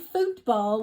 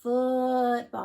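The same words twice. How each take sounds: First: The vowel in foot is the long oo sound. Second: The vowel in foot is the short oo sound. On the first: The speaker calls it wrong. "we wouldn't say football" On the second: The speaker calls it right. "that's the short double O sound"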